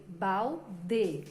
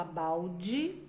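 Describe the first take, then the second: First: Balde said slowly as "bal-de", every letter sounded; slow, letter by letter balde, the way it is written; spelled-out balde. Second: Balde said as "bau-dji", L sounding like U; spoken balde. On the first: Teacher showing kids how balde is spelled. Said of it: "mas escreve balde". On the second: Teacher showing kids how balde is spoken. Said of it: "a gente fala balde". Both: Shown as a demonstration.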